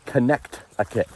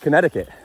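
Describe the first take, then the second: First: The word is said carefully, with every sound emphasized. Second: The word is said in a relaxed, everyday way. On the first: This is the technically correct form. "technically it's Connecticut" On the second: This is how most people say it. "most people just say Connecticut"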